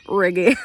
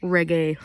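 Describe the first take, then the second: First: Put-on louder, lilting Jamaican-accented reggae with a rising end; mock Jamaican accent. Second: Said in the usual way. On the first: Vlogger describing her pirate jingle, mock Jamaican accent. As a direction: toss the word off in a playful Jamaican accent. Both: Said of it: "I don't know why I put an accent on".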